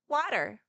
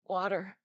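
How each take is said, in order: First: It is said in Hetty's girlish voice. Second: It is said in Hutter's deep voice.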